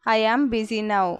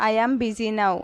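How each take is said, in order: First: "I am busy now" said slowly, word by word; slow, careful repeat. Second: Said in the usual way. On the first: Shown as a demonstration. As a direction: spell it out slowly for learners. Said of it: "teacher repeats the phrase slower". (నెమ్మదిగా, స్పష్టంగా) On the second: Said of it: "teacher repeats the phrase".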